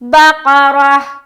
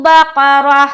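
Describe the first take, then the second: First: The word ends with a clear h sound. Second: The word ends with a clear h sound.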